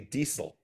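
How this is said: The s sound in the middle is crisp. This is how the other person says it. "you pronounce the S so perfectly. You say you say diesel"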